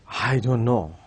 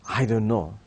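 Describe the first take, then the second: The two takes are said the same way.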